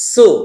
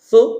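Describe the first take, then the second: First: The s is a sharp hiss behind the teeth. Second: The s is lisped with the tongue between the teeth. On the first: The speaker calls it right. "সিন পেশের ক্ষেত্রে সাউন্ডটা হবে সু" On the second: The speaker calls it wrong. "সু এরকম সাউন্ড হবে না"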